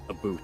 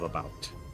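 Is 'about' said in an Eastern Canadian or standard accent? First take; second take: Eastern Canadian; standard. First: It is said with an Eastern Canadian accent. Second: It is said with a standard North American accent.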